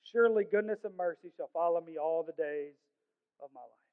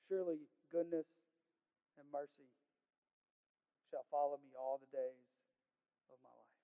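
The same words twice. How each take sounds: First: Said in the usual way. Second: Soft, low, broken into short phrases with long pauses; hushed reverence. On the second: Real, not acted. Preacher repeating the song's most important part, hushed and reverent. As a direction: let each phrase of the verse sink in quietly.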